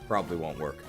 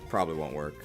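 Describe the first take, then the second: No difference in how they are said.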